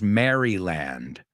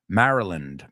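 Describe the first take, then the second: First: The first part sounds like the name Mary. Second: The first part is reduced to sound like Mara. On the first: The speaker calls it wrong. "no decimos Maryland" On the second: The speaker calls it right. "Pero juntos Mara, Maryland"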